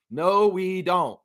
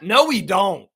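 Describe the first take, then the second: First: Drawn-out calm "No, we don't"; slow, settled repeat. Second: Louder, punchy refusal; firm loud "No, we don't"; emphatic no. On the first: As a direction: let it sink in slowly. Repeats the answer more calmly. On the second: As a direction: slam the door on the idea. Answers himself emphatically. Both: Real, not acted.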